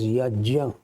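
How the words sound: The middle is sounded as 'jn'. This is how it is said in South India. "In South India, it gets pronounced as yajna"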